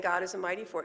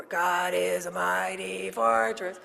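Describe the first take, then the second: First: Said in the usual way. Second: Mock hymn singing in a gravelly voice, slow and loud; sung, belt out the hymn slowly, imitating a gruff singer. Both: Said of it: "so he sang".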